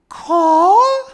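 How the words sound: It is said with a questioning rise.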